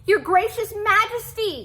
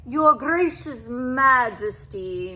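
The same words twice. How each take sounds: First: High, loud pleading cat voice; a small cat begging the king for help. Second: Slow, loud purring welcome; a cat purring sweetly to the king. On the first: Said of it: "begged for help". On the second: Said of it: "he purred". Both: A narrator's reading.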